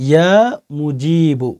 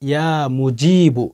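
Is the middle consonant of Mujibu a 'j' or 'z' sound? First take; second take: j; j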